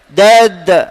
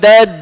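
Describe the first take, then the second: First: The final consonant bounces with an 'a'-like echo. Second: The final consonant lacks an 'a'-like echo. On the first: The speaker calls it right. "qalqalah sughra, dan sifat qalqalah ini baris atas bunyi dia" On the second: The speaker calls it wrong. "bukan dad"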